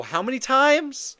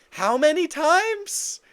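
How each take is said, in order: First: Incredulous, rising and loud; demanding it, worked up; heated. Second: Slower, higher and louder incredulous repeat. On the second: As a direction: lean into the disbelief. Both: Real, not acted. Heated rant about knockdowns.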